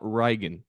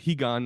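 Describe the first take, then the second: First: The name begins with an R sound. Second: The name begins with an H sound. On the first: The speaker calls it wrong. "not Reigen, because it's an R, but the Brazilians don't say that" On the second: The speaker calls it right. "That's why I said Higan"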